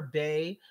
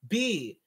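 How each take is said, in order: First: The name rhymes with 'day'. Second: The name rhymes with 'see'. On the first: The speaker calls it wrong. "Can we please stop calling her Bay" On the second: The speaker calls it right. "Baychella is B"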